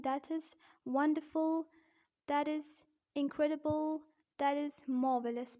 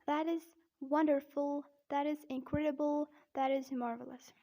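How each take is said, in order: First: British demo, Rs dropped in wonderful and marvelous; careful non-rhotic British accent; British-accent praise examples. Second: American demo, Rs sounded in wonderful and marvelous; careful rhotic American accent; American-accent praise examples. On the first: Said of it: "in British accent". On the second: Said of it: "But in American accent". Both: Shown as a demonstration.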